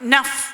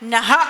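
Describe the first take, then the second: First: The word ends with a soft 'f' sound. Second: The word ends with a breathy 'ha' sound. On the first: The speaker calls it right. "അതിനൊരു ഉഫ് ചേർക്കുക" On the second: The speaker calls it wrong. "നഹ എന്ന് പറയുന്നതിന് പകരം"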